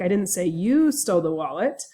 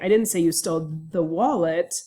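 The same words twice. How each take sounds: First: The word 'you' carries the stress. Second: The word 'wallet' carries the stress. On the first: Someone stole it, but maybe not you. "meaning that I said someone stole the wallet, but maybe it wasn't you" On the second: You stole something, but not the wallet. "I didn't say it was a wallet that you stole"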